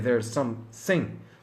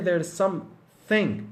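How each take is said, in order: First: The middle consonant is a hissing s sound. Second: The middle consonant is a soft th sound. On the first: The speaker calls it wrong. "I'm sorry, there's some sing" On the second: The speaker calls it right. "I've gotta say there's something, not some sing"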